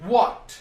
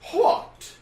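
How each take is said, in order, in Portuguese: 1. Começa com som de w simples. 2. Começa com som de w aspirado.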